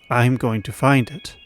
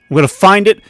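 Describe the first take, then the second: First: The line is said in an unsettled, uneasy tone. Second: The line is said in a determined tone. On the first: The character is troubled rather than simply resolved. "what I'm most likely thinking Kieran is" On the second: The character is resolved to succeed. "it's determination"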